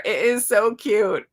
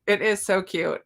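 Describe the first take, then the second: First: "so" stretched slow and louder in "It is so cute"; gushing stress on so. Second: Said in the usual way. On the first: Shown as a demonstration. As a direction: linger on "so" in "It is so cute" with gushing delight.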